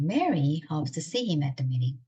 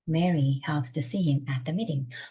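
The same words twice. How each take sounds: First: The stress falls on the word Mary. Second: The stress falls on the word meeting. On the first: It is this person, not someone else, who hopes. "만약에 메리를 강조하고 싶다 그러면" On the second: The place of the meeting is what matters. "그래서 미팅이 강조가 됩니다"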